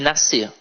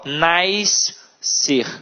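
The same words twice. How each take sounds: First: The two middle consonant letters make a single sound. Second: The two middle consonant letters are sounded separately. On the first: The speaker calls it right. "É piscina e nascer... o som é o mesmo" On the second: The speaker calls it wrong. "hipercorreção... elas falam nascer"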